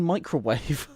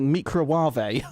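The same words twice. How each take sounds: First: Said in the usual way. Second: Microwave said as "mee-cro-wah-vay"; imitating a TV cook's "mee-cro-wah-vay" for microwave; deliberate mispronunciation.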